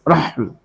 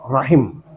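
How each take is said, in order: First: First vowel a, no second vowel. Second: First vowel a, second vowel i. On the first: This is a lightened form. "Bisa dibaca khafif dengan sukun haknya" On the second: This is the standard classical form. "Roknya fathah, ... menurut bahasa yang fasih"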